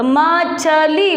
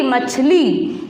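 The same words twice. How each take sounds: First: मछली split slowly into म...छ...ली; syllable by syllable. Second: Said in the usual way. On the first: Shown as a demonstration. Teacher showing pupils how it is pronounced, syllable by syllable. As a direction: sound out मछली one long syllable at a time. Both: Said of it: "तो उच्चारण कैसे होगा इसका?".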